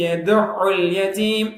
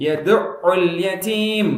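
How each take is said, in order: Both takes have the same delivery.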